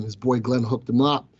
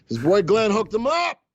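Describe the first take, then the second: First: Said in the usual way. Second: Louder, higher boast with a rising end; bragging about his own stock tip; proud brag. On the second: Shown as a demonstration. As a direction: crow about it to the chat.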